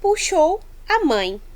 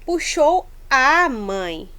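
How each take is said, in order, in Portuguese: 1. A vogal antes de 'mãe' é um 'a' simples e curto. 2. A vogal antes de 'mãe' soa como dois 'a'. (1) "Na primeira frase ali, no A, nós não temos uma crase" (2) "a gente dá-se o som como se fosse dos dois As"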